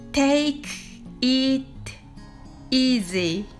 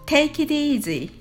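First: The phrase is said slowly. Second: The phrase is said quickly. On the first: "はじめはゆっくりです。" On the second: "次に早く言ってみましょう。"

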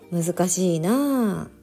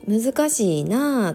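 First: It has a flatter intonation with little mouth movement. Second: It has a strongly rising and falling Osaka intonation. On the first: "でもあの宮津弁は難しいな" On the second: "関西の人だったらとか大阪の人だったら難しいなとか言うと思う"

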